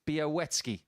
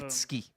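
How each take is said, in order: First: The middle consonant is a W sound. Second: The middle consonant is an L sound. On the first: The speaker calls it right. "the L that we see is a W" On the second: The speaker calls it wrong. "I wasn't in tune with how you say his name"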